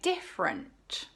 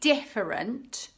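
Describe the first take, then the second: First: A sound or syllable is dropped. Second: Every syllable is pronounced in full. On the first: "you can say" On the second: "Instead of saying"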